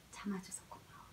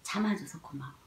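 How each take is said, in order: First: Whispered thanks, breath only; gentle whisper to baby. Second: Said in the usual way. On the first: Shown as a demonstration. Mother whispering thanks to her baby for waiting, in a hushed whisper. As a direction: whisper it softly into the child's ear. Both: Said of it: "아기한테 말하는 거죠".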